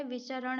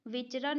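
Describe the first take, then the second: First: "विचरण" in three syllables, vi-cha-ran; correct form vicharan. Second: "विचरण" squeezed to two syllables, vich-ran; wrong form vichran. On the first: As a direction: give cha its own vowel in "विचरण". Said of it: "विचरण होता है". ("विचरण" को वि-च-रण बोलें) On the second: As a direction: run ch into r in "विचरण". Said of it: "विचरण नहीं होता है". ("विचरण" को विच-रन बोलें) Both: Shown as a demonstration.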